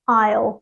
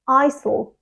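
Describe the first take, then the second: First: One syllable with no S sound. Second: Two syllables with an S sound. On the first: The speaker calls it right. "It's just one syllable and it's pronounced I'll" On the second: The speaker calls it wrong. "they pronounce the S sound"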